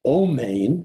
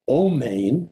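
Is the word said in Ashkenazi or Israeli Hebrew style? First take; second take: Ashkenazi; Ashkenazi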